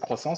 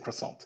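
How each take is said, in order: First: The word is said with a French accent. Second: The word is said with an English accent. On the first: "Sometimes I say croissant with the French accent" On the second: "Sometimes I say it with the English accent"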